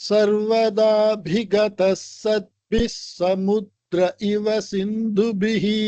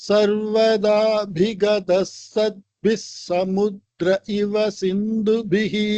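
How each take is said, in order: The two takes are said the same way.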